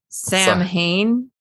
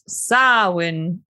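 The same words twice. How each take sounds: First: It is read out the way the letters look. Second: It is said like 'Saa-WN', without an m-h. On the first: The speaker calls it wrong. "It's spelled like Samhain" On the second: The speaker calls it right. "but it's Samhain"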